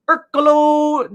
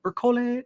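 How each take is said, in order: First: "Ercolo" said ER-ko-lo, ending in O; "Ercolo" read with a final O sound, unsure; first reading of the name. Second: "Ercole" said ER-ko-leh, ending in E; "Ercole" corrected with a final E sound; corrected name. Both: Real, not acted. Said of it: "Or Ercole".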